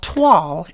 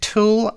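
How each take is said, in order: First: The word sounds like 'twahl' with a wa sound. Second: The word sounds like English 'tool'. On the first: The speaker calls it right. "But this is called toile" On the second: The speaker calls it wrong. "I pronounced it Tool"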